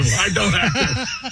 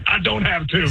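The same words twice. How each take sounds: First: Slow, laughing through the words; laughing dismay. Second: Said in the usual way. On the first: Retold or imitated. Runner laughing at his own mistake to the host, slow laughing dismay. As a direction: laugh at your own doom, slowly. Realizing he'll be thrown out.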